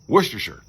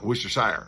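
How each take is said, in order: First: The last syllable is reduced to a short 'sher'. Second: The last syllable is a full 'shire' sound. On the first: The speaker calls it right. "like New Hampshire" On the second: The speaker calls it wrong. "not Worcestershire, like New Hampshire"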